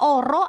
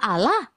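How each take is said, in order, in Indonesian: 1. Diucapkan dengan bunyi R, bukan L. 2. Diucapkan dengan bunyi L yang jelas.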